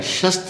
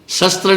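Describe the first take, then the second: First: The word begins with an 'sh'. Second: The word begins with a plain 's'. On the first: The speaker calls it right. "होता है" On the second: The speaker calls it wrong. "नहीं होता है"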